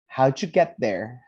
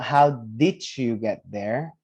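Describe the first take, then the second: First: 'Did you' blends into a single 'dju' sound. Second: Each word of 'did you' is said separately. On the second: "the way that grandma asked the question is not how did you get there?"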